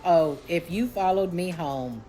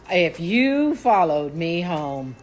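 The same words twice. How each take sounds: First: Said in the usual way. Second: "you" held long and pushed harder, slow menace; drawn-out threat. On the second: Retold or imitated. To whoever followed her home, warning with long stressed "you". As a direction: stretch YOU slowly, rising in force.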